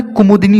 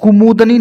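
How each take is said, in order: First: कुमुदनी with short i after d, "kumudini"; corrected word. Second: कुमुदनी as "kumudani", no i after d; mispronounced कुमुदनी. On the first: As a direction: put "di" before the ni of कुमुदनी. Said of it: "दापे छोटी की मात्रा". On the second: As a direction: put "da" before the ni of कुमुदनी, pitched up. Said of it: "नहीं होता है". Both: Shown as a demonstration.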